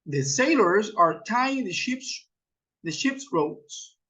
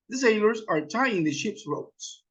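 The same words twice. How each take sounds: First: Slow, broken before the last phrase; slow model sentence. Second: Said in the usual way. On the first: Shown as a demonstration. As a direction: model it slowly, pausing and repeating "the ship's". Models example sentence for learners. (lento, con pausa y repetición)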